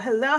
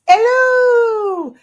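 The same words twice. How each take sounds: First: It is said in the speaker's normal voice. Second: It is said in a Mrs Doubtfire impression.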